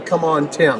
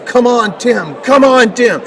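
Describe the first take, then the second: First: Said in the usual way. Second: Calls out higher and louder, like a dad in the bleachers; father cheering his son at a track meet, mock yell; retold cheering yell. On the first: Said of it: "my father's voice above everybody else's". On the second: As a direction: cheer him on from the track side. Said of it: "he's yelling at the top of his lungs".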